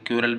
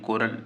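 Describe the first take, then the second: First: The word begins with a kyoo sound. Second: The word begins with a ko sound. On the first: The speaker calls it wrong. "कोई कोई इसे क्यूरल भी बोलता है" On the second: The speaker calls it right. "कोरल इसकी correct spelling pronunciation है"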